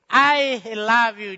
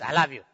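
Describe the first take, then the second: First: It is said warmly and with feeling. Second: It is said flatly, without feeling.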